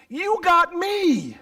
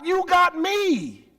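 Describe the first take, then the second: First: High, slow tender "got"; tender slow plea. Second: High, slow tender "got"; tender repeat. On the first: Father to son, tender. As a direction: hold on "got" lovingly. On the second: Father to son, repeating tenderly. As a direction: repeat it lovingly. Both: Acted.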